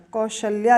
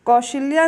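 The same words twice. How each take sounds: First: कौशल्या said tightly as "kaushalya"; correct pronunciation. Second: कौशल्या said as "kaushiliya", with an extra i sound; wrong pronunciation. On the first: Teacher giving students the correct form, कौशल्या said as kau-shal-ya. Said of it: "कौशल्या लिखा जाता है". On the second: Teacher showing students the wrong form, कौशल्या said as kau-shi-li-ya. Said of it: "कौशल्या नहीं होता". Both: Shown as a demonstration.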